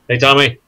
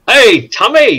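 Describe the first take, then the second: First: The greeting is said flatly, without energy. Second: The greeting is said with energy and enthusiasm.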